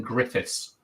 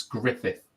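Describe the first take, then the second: First: GRIFFITHS ending in an S sound; Griffiths with final S. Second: GRIFFITH ending on TH, no S; Griffith without S. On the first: Host admits the mistaken name, Griffiths with final S. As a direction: say "Griffiths" with an S on the end. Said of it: "I've been saying Griffiths". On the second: Host corrects the guest's name, Griffith without S. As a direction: say "Griffith", stopping on the soft TH. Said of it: "but it's Griffith". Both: Shown as a demonstration.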